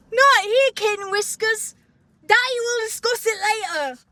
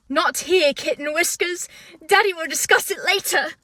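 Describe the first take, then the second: First: High-pitched, hammed-up character accent; Prince Charming. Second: Attempted put-on character accent; Prince Charming. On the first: Host mocking the fruitiest line, exaggerated prince accent. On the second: Host attempting the iconic line, mock prince accent. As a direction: try the fruity prince's accent, a little raised. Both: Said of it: "should I try to do the accent?".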